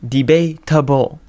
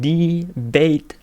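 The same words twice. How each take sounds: First: "Debatable." said slowly and carefully in full, with a falling end; correct pronunciation. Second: "Debatable." said slowly as "de-BATE", clipped short with a rising end; wrong pronunciation. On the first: Shown as a demonstration. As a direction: spell out "Debatable." deliberately, every syllable, and land it firmly. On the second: Acted. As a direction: drag out "Debatable." and end it with an upward lilt. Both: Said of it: "No, no, you're saying it wrong".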